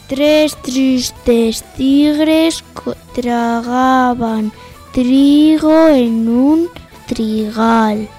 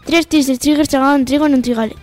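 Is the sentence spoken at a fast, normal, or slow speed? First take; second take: slow; fast. First: The sentence is spoken at a slow speed. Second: The sentence is spoken at a fast speed. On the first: "Empezamos por la lenta" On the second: "Y a velocidad rápida"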